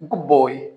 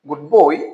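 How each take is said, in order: First: The word good ends in a b sound. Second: The word good ends in a d sound.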